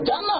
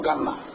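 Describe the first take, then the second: First: The word begins with a 'j' sound. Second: The word begins with a hard 'g' sound. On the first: "এই যে জান্নাত" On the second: "মিশরি মানে ... এই জান্নাত হচ্ছে গান্না"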